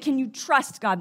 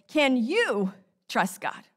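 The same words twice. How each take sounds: First: The stress is on trust. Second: The stress is on you.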